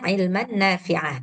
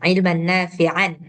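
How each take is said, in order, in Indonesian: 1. Kata terakhir berakhir tanpa bunyi n. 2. Kata terakhir berakhir dengan bunyi n.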